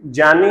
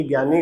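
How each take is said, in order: First: जानी as "jyani", j opening; correct pronunciation. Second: ज्ञानी as "gyani", hard g; wrong pronunciation. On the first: Teacher recapping the right form, "jyani" with j. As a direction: say जानी with j, not g. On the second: Teacher recapping the error for students, "gyani". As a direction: say ज्ञानी with "gy" at the start. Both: Shown as a demonstration. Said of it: "ये ज्ञानी गलत है".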